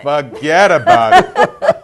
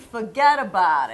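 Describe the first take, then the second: First: Put-on slow, laughing New Jersey accent; mock Jersey girl, stretched out and giggling. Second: Lightly voiced Long Island accent, low. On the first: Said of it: "A Jersey girl". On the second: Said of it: "I can talk like I'm from Long Island".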